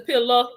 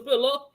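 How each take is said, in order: First: The word ends in an 'ah' vowel. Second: The word ends in an 'oo' vowel. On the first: "sometimes it's a pillow with an A" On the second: "sometimes it's a pillow with a U"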